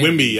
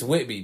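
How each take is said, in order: First: The middle has an m sound instead. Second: The middle has a clear t sound. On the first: The speaker calls it wrong. "but you say Wimby" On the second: The speaker calls it right. "It's Whitby"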